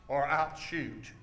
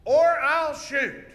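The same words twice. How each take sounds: First: Slow, low, softened warning; low hero's threat. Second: Slow, high shouted warning; hero's shouted threat. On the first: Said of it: "Let's watch a little closer". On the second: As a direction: stretch it out in a raised shout. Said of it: "Watch here. It goes". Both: Shown as a demonstration.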